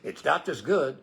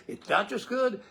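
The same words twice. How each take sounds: First: Said in the usual way. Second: Higher retake. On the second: Shown as a demonstration.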